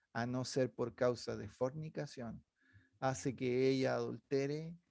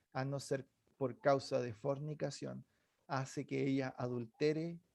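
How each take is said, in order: The two takes are said the same way.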